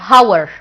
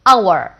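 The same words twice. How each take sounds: First: The word begins with an h sound. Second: The word begins with a vowel sound. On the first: "I didn't pronounce it as H" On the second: "نطقتها زيها زي الفاول"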